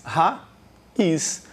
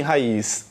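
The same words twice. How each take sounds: First: "Raiz" split into ra, pause, iz; syllable division. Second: Said in the usual way. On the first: Shown as a demonstration. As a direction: say "Raiz" as two separate syllables. ("Raiz" separado em duas sílabas: ra, iz) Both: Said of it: "Quantas sílabas tem raiz".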